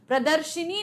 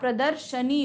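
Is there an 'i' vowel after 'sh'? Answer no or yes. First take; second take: yes; no. First: An 'i' vowel is said after 'sh'. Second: No 'i' vowel is said after 'sh'. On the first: The speaker calls it wrong. "प्रदर्शिनी नहीं होता" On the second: The speaker calls it right. "प्रदर्शनी होता है"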